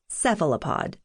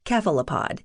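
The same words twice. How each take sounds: First: The word begins with a soft s sound. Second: The word begins with a hard k sound.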